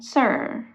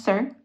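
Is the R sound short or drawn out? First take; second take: drawn out; short. First: The R sound at the end is drawn out. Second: The word is quick with a short R. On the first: The speaker calls it right. "I'm dragging the R sound" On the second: The speaker calls it wrong. "I'm not making it hasty. Not sir"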